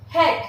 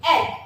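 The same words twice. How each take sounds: First: Said in the usual way. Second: "Head" broken into h, then ad; "Head" split with a pause after the h; sounded out. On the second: Shown as a demonstration. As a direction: sound out "Head" in separate phonics pieces. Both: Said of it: "how we are going to pronounce it".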